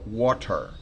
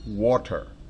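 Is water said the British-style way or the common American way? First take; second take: British-style; British-style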